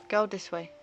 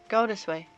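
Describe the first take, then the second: No difference in how they are said.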